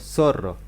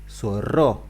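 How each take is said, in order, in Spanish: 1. La sílaba tónica es la primera. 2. La sílaba tónica es la última. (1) "digo zorro" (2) "Yo no puedo decir zorro"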